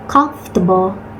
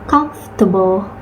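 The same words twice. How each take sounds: No difference in how they are said.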